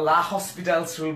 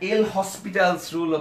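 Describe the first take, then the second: First: It starts with 'la' and has 'hospital'. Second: It starts with 'el' and has 'hospital'. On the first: "অনেকে এল হসপিটালস rule অথবা লা হসপিটালস rule বলে থাকে, আসলে কিন্তু সেটা সঠিক উচ্চারণ না" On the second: "অনেকে এল হসপিটালস রুল অথবা লা হসপিটালস রুল বলে থাকে, আসলে কিন্তু সেটা সঠিক উচ্চারণ না"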